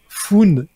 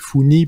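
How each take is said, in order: First: The name ends on a bare n sound. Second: The name ends with an added y vowel. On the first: "je fais exprès de prononcer ça comme ça" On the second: "à l'anglais ça fait Foony peut-être"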